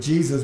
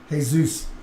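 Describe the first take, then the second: First: The first letter J is sounded. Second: The first letter J is silent.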